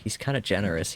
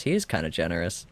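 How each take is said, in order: First: Said in the usual way. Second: "is" spoken in full and emphasized; stress on IS. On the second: Real, not acted. Player grants the game's character some credit, stress on IS. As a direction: lean on the word "is" to concede it.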